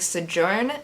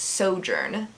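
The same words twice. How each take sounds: First: The word is said the way she used to. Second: The word is said the way she now uses. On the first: The speaker calls it wrong. "I was saying Sojourn" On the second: The speaker calls it right. "and it's Sojourn"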